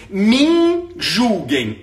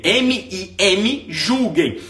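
First: "me" drawn out slowly, as the written form; "me julguem" read out slowly; "me julguem" spelled out. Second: "M I M" spelled letter by letter, slowly, then "julguem". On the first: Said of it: "e botei". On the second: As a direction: spell out the wrong form "M I M". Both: Shown as a demonstration.

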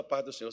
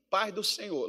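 First: Minas Gerais accent. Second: Said in the usual way. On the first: Shown as a demonstration. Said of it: "Lá em Minas nem fala". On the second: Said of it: "A gente geralmente só vai falar assim".

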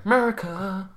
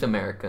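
First: Higher, hammed-up redneck American "America"; exaggerated American hick accent. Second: Said in the usual way. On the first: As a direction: say "America" as a joking American 'Murica cheer. Joking patriotic shout after naming ancestry.

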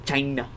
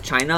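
First: "China" in a put-on accent; imitated China accent. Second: Said in the usual way. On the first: Host saying how he hears the word, mock-accented "China". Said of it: "the accent of the China". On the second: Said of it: "every time I hear the word".

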